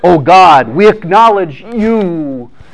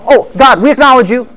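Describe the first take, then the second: First: It is said with exaggerated, earnest feeling. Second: It is said casually, without much feeling.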